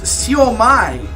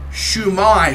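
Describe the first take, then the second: First: The word begins with a 'see-oh' sound. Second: The word begins with a 'shoo' sound. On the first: "it is pronounced Siomai" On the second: "Wikipedia says it is Shumai"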